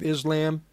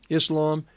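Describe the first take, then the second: First: "Islam" with a buzzed z and flat a, IZ-lam; Americanized Islam. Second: "Islam" with a hissed s and open ah, iss-LAHM; corrected Islam. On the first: Preacher reading Iran's statement to listeners, Islam said IZ-lam. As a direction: say "Islam" as IZ-lam, vowel as in "lamb". Corrects own pronunciation while reading. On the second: Preacher correcting himself while reading the statement, Islam said iss-LAHM. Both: Real, not acted.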